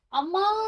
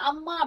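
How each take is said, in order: First: It is shouted with the vowel drawn out. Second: It is said calmly at normal length.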